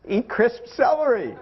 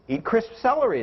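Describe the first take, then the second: First: CELERY and CRISP spelled out slowly, each word deliberate; slow, emphatic "Eat crisp celery"; insistent repetition. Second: Said in the usual way. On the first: Retold or imitated. Coach repeating advice to a picky dieter, "Eat crisp celery" slow and insistent.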